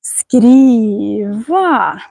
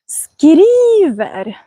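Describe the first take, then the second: First: "Skriva" with the tune going down, then up, then a little down; word melody demo. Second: "skriver" whispered, higher, pitch only rising; rising word melody. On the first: Teacher showing viewers the typical melody, down-up-down "Skriva". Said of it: "ner och upp och lite ner". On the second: Teacher contrasting the word melodies, higher whispered rising "skriver". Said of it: "då går melodin bara uppåt". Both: Shown as a demonstration.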